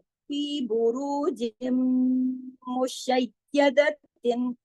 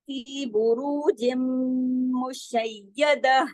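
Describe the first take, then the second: First: The last word ends with a 'tin' sound. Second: The last word ends with an 'ah' sound. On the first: The reading continues into the next word. "मिला के पढ़ने में, अगर हम मिलाएंगे मिसाल के तौर पर ऐसे" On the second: The reader stops after this word. "लेकिन अगर हम रुकते हैं"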